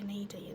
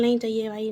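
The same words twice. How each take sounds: First: "नहीं चाहिए" whispered under the breath; fading whispered refusal. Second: Said in the usual way. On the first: Real, not acted. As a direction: whisper it, trailing off.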